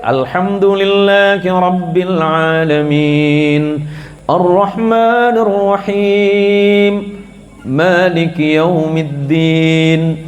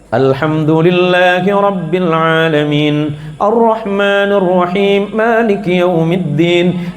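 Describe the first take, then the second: First: The verses are recited slowly and drawn out. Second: The verses are recited at a moderate speed. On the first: "Kalau ya tartil" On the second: "Kalau yang tadwir, yang sedang"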